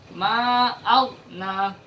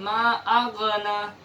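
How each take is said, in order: First: The gh sound flows on without an echo. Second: The gh sound is released with an echoing bounce. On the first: The speaker calls it right. "saya ulang, ma'aghna" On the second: The speaker calls it wrong. "bukan ma'aghna"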